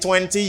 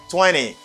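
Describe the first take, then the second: First: The T after N is clearly pronounced. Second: The T after N is dropped. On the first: The speaker calls it wrong. "you don't say" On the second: The speaker calls it right. "you say"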